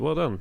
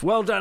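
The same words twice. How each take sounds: First: It sounds flat and half-hearted. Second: It sounds warm and enthusiastic.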